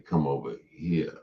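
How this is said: The word 'here' rhymes with 'ear'. This is how people from Nashville say it. "We say"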